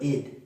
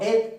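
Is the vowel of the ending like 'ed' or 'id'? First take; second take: id; ed. First: The ending is said with a short 'i' vowel. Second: The ending is said with an open 'e' vowel. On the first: The speaker calls it right. "pero id" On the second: The speaker calls it wrong. "No ed"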